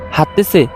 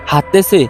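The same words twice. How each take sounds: The two takes are said the same way.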